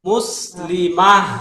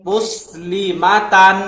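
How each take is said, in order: First: The word ends with a soft 'h' sound. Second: The word ends with a full 'tan' ending. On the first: The reader stops on this word. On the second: The reading continues without stopping.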